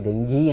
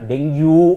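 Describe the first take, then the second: First: The word ends in an 'ee' sound. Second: The word ends in a 'yoo' sound. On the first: The speaker calls it right. "ಅದು ಡೆಂಗಿ ಅಂತ" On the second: The speaker calls it wrong. "ಡೆಂಗ್ಯೂ ಅಂತ ಕರೀತಾರೆ. ಆ ಡೆಂಗ್ಯೂ ಆಗಲ್ಲ"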